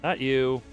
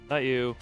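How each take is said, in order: Both takes have the same delivery.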